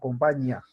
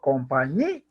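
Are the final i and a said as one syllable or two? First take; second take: one; two. First: The final i and a merge into one syllable. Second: The i is stressed and split from the a. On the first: The speaker calls it wrong. "si le quitara el acento, la palabra sería compañía o compañía. Entonces se formaría un diptongo" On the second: The speaker calls it right. "Le estoy dando énfasis a la vocal cerrada para poder separarla de la vocal abierta"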